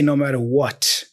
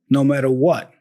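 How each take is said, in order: First: The final t is clearly released. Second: The final t is held, not released. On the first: "He doesn't say no matter what" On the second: "There's a stop consonant there"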